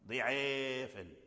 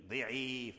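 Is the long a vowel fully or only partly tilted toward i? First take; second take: partly; fully. First: The long a vowel shifts only partly toward i. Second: The long a vowel shifts fully toward i. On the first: The speaker calls it right. "لكن لا تميله إمالة كلية، لا، إنما بعض الميل فقط" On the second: The speaker calls it wrong. "لا تقول ضعيفا ضعيفا، لا"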